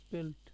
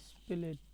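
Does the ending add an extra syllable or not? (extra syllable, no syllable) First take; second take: no syllable; extra syllable. First: The ending joins the word with no vowel. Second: The ending is said as an extra syllable. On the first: This is the modern way of saying it. The speaker calls it right. "এখন স্পেলড" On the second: This is the old way of saying it. The speaker calls it wrong. "আমরা করতাম এই স্পেলেট"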